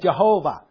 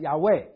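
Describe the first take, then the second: First: The name begins with a J sound. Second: The name begins with a Y sound. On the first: The speaker calls it wrong. "耶和华那个字不应该念Jehovah" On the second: The speaker calls it right. "应该是Yahweh"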